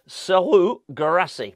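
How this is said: The first name has a French accent. "I said the first bit with a French accent"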